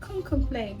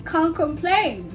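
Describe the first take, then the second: First: The voice sounds hesitant and resigned. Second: The voice sounds bright and cheerful. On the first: Things are going badly but there's no point complaining. "things are not going so well" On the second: Life is going well. "If life is beautiful"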